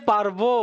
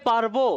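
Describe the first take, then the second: Both takes have the same delivery.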